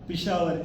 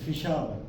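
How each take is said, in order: First: It begins with a plain p sound. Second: It begins with a puffed f sound. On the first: The speaker calls it right. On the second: The speaker calls it wrong.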